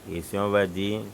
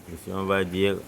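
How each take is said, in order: The two takes are said the same way.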